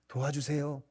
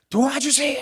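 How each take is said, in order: First: It is said in a small, quiet voice. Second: It is shouted in a loud voice. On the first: The speaker calls it wrong. "작은 소리로 말하지 않습니다. ... 이렇게 하지 않죠" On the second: The speaker calls it right. "큰 소리를 외칩니다"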